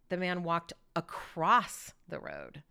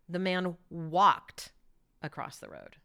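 First: The word across is stressed. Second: The word walked is stressed.

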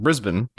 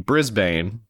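First: It is said in an Australian accent. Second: It is said in a non-Australian accent. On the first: It copies how the Australian guest says it. "but of course you pronounce it Brisbane" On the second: This is how the speaker would normally say it. "which to me would be Brisbane"

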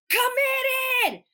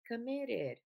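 First: The word is said loudly and with force. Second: The word is said quietly and without force. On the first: The speaker sounds truly committed. The speaker calls it right. "I can hear her over the music. It's clear, it's enunciated" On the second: The speaker does not sound convincing. The speaker calls it wrong. "like, I don't believe you"

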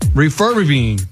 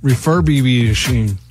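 First: The word is said without the 'ish' syllable. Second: The word is said with the 'ish' syllable. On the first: The speaker calls it wrong. "he just wasn't saying it right" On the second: The speaker calls it right. "Boom, got it"

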